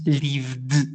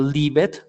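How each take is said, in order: First: The ending is a single d sound. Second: The ending adds an extra id syllable. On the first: The speaker calls it right. "therefore the pronunciation is lived" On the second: The speaker calls it wrong. "not leave it"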